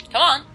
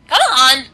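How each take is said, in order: First: Said in the usual way. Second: Loud, higher, voice cracking. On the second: Real, not acted. Gamer urging an enemy to charge, voice cracking. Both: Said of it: "That was a really weird voice crack".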